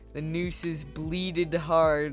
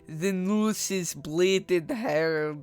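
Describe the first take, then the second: First: It is said in his normal accent. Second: It is said in a Russian-sounding accent.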